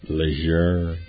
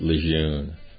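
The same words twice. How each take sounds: First: The last syllable has an R sound. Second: The last syllable has no R sound. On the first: The speaker calls it right. "They pronounce it Lejeune" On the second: The speaker calls it wrong. "They don't pronounce it Lejeune"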